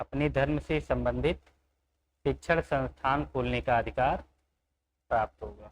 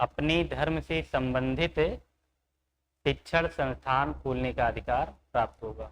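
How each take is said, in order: No difference in how they are said.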